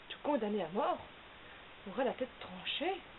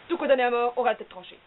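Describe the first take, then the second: First: It is said as a question. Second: It is said in an angry way.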